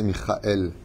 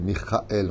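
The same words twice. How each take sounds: First: The name is said with French pronunciation. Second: The name is said with Hebrew pronunciation. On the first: "Michael en français, c'est Michael" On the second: "Pas Michael, Michael en hébreu"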